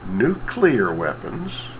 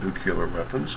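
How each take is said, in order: First: The word is said like nuc-le-ar. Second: The word is said like nuc-u-lar. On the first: The speaker calls it right. "they could possibly get" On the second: The speaker calls it wrong. "mispronounce this simple word"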